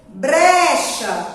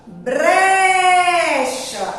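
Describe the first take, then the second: First: Said in the usual way. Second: "Brecha" with a long held BRE; drawn-out stressed syllable. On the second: Shown as a demonstration. Teacher showing children the strong syllable, drawn out. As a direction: stretch the start of "Brecha": breeecha. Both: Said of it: "Aonde a tia [name] demorou mais?".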